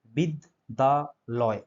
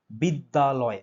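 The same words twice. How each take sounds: First: Very slow, pausing between each syllable of বিদ্যালয়; broken into syllables. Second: Said in the usual way. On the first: Shown as a demonstration. Teacher showing students the syllables of বিদ্যালয়, slowly broken up. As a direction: say বিদ্যালয় in three separate beats, drawn out. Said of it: "ভেঙে ভেঙে উচ্চারণ করলে". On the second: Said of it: "আমরা কিভাবে উচ্চারণ করি বলো তো".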